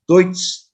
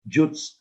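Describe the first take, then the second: First: The word begins with a 'd' sound. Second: The word begins with a 'j' sound. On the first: The speaker calls it right. "That is correctly pronounced as Deutsch" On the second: The speaker calls it wrong. "That is not Jutz. Jutz, hindi yan"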